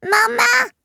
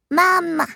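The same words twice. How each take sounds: First: Very high and louder "Maman!" held long; a louder, higher baby "Maman!"; louder baby babble. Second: Put-on high bright baby call of "Maman!", falling at the end; a babbled "Maman!" from the baby; baby's first word. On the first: Acted. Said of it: "plus fort cette fois". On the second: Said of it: "déclare-t-elle".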